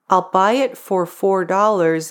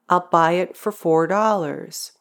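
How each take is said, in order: First: The word 'for' is pronounced fully. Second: The word 'for' is reduced to a quick 'fur'.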